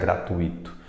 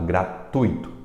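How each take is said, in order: First: The stress is on the syllable i. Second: The stress is on the syllable tu. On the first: The speaker calls it wrong. "onde é que está o acento nesse I para ela pronunciar gratuito" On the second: The speaker calls it right. "Tui, tui, tui"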